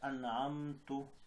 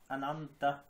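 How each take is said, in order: First: The word ends with a 'u' vowel. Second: The word ends with an 'a' vowel. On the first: The speaker calls it wrong. "इन्होंने पढ़ लिया इसको पेश" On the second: The speaker calls it right. "अनामता जबर था"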